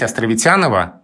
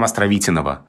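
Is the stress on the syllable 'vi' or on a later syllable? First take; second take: later syllable; vi. First: The stress falls on a later syllable. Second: The stress falls on the syllable 'vi'. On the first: It is the easier form used in everyday speech. "гораздо удобнее" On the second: It follows the stress of the honoured person's surname. "много слогов после ударного"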